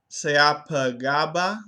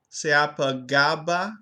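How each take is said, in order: Both takes have the same delivery.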